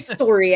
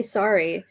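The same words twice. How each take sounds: First: Sorry as SORE-ee, punched louder; Canadian pronunciation. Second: Said in the usual way. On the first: Shown as a demonstration. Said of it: "I don't say". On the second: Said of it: "I say".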